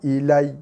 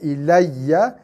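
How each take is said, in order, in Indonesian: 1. Kata ini berakhir terputus pada konsonan. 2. Kata ini berakhir dengan vokal penuh. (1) "bila waqaf"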